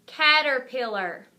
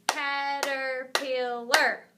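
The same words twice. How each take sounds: First: Said in the usual way. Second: "Caterpillar" slow, in four separate beats; syllable by syllable. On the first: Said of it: "I'm gonna say the word". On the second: Shown as a demonstration. Teacher clapping a longer word with children, "Caterpillar" slowly split up. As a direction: stretch "Caterpillar" out, one syllable per clap. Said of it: "We'll clap it together".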